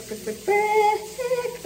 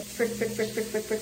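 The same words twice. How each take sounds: First: High, slow drawn-out cries; in an ice bath. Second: In an ice bath. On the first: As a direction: squeal it through the cold. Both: Real, not acted. Cold water shock.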